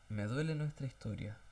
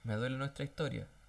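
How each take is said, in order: First: It is said with heartfelt emotion. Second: It is said flatly and mechanically. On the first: The words come from the heart. The speaker calls it right. "Fíjate de la entonación" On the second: The words are just being repeated. The speaker calls it wrong. "que es diferente a decirle"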